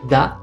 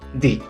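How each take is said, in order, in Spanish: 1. La vocal es una 'uh' corta y relajada. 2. La vocal es una 'ee' larga y brillante. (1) "Se puede pronunciar da" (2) "se puede pronunciar di"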